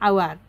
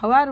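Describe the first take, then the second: First: The word begins with a vowel sound. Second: The word begins with an h sound. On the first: The speaker calls it right. "এইচটোৰ উচ্চাৰণ নহয়" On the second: The speaker calls it wrong. "ভাবা যে হাৱাৰ বুলি"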